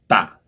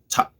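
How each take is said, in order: First: The t is said the Spanish way. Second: The t is said the English way. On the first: "but in Spanish you say ta, ta, like more strong" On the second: "in English you say ta"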